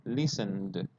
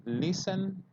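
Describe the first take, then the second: First: Listened said lower, ending on a soft d; model of listened. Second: Listen said as a higher base form, no ending; plain model of listen. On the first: Teacher shows past tense listened to students. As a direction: say listened with a final d, no extra syllable. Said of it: "That's how it sounds". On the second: Teacher contrasts base verb listen for students. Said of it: "You have to say". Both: Shown as a demonstration.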